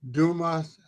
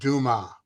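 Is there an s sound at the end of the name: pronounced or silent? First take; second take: pronounced; silent. First: The name ends with an audible s sound. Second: The name ends without any s sound. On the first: "we call him Dumas" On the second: "Dumas without the S sound"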